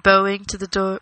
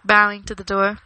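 First: "bowing" with an OH vowel, rhyming with "rowing"; BOH-ing for "bowing"; misread bowing. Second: "bowing" with an OW vowel, rhyming with "allowing"; BOW-ing, first syllable as in "cow"; corrected bowing. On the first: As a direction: say "bowing" like playing a violin with a bow. Misreads bowing, then corrects it. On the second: Corrected repeat of the misreading. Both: A narrator's reading.

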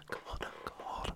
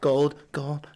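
First: Whispered gold. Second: Said in the usual way. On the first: Shown as a demonstration. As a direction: breathe the word gold with no voice. Repeats gold then whispers.

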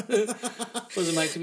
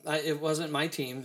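First: Laughing through the words, slow. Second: Said in the usual way. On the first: Real, not acted. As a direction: chuckle it out, amused. Repeats line laughing.

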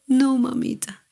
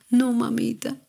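First: Retold child's cry, stronger. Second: Mild mock cry, higher; imitating a hurt child calling out; retold child's cry. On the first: Daughter in pain begging mom, higher mock cry. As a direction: echo the plea a touch more urgently. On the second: Hurt daughter crying out to mom, mild mock cry. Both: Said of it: "me gritaba".

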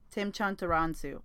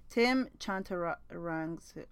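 First: "Tim Chantaransu" said smoothly at normal speed, falling at the end; confident correct name. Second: "Tim Chantaransu" sounded out slowly, syllable by syllable; careful slow name. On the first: Finally getting the friend's husband's name right, smoothly. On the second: Working through a hard name, slow and careful. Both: Shown as a demonstration. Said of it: "Ooh, I think I said it".

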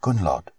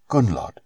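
First: Softly calling her name, Gunnlod; a quiet summons in the dark. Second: A secret whisper from behind her; whispered name. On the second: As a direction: whisper Gunnlod, no voice at all. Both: A narrator's reading. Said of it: "heard a voice speak softly".

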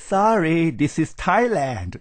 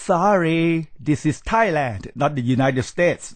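First: Very slow, stretched-out sorry with a falling tune, mocking; mock drawl. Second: Firm rebuke. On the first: Mimicking returnees who choose to speak English, slow mock drawl. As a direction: drag it out like a smug returnee showing off. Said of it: "กลับมาเลือกพูดภาษาอังกฤษ". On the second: Acted. Lecturer rebuking a rude returnee, firm and deliberate. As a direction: put the brash returnee firmly in place, Thailand falling hard. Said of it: "ก้าวร้าว แล้วก็ไม่รู้ที่ต่ำที่สูง".

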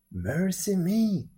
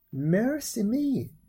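First: Drawn-out exclamation, a little raised; old man exclaiming. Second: Put-on high, drawn-out old woman's exclamation; old woman exclaiming. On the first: Old man echoing the old woman over the baby, drawn-out exclamation. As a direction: echo her wonder, slightly less high. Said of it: "said the old man". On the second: Old woman at the baby found inside the peach, high drawn-out exclamation. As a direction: stretch it out high in wonder. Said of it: "said the old woman". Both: A narrator's reading.

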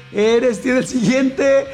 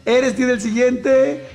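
The two takes are said the same way.

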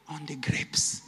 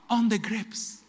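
First: Whispered regret. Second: Said in the usual way. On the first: Acted. Man's regret, whispered aside.

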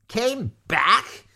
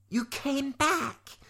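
First: High, loud, incredulous shriek. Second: High, drawn-out cry without volume; mock shout. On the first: Maudmont echoing Lavender in disbelief, loud rising shriek. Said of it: "shrieked Maudmont". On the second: Lavender calling to returning Eliza, high drawn-out mock shout. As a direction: call it out high and slow. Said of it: "Lavender shouted to Eliza". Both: A narrator's reading.

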